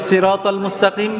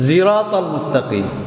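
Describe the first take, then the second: First: The first word begins with an s sound. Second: The first word begins with a z sound. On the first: This is how the speaker's own community recites it. "কোরআনে আমরা পড়ি" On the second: This is how another recitation tradition recites it. "সিরাতালের জায়গায় তারা কি বলে? জিরাতাল।"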